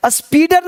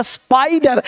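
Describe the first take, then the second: First: स्पीडर with "ee" in the first syllable; स्पीडर with a long "ee"; wrong reading. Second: स्पाइडर with "eye" in the first syllable; स्पाइडर as "SPY-dar"; letter-name vowel. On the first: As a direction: misread it as स्पीडर, "SPEE-dar", pitched higher. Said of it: "स्पीडर नहीं". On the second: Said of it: "यहाँ पे आई है". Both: Shown as a demonstration.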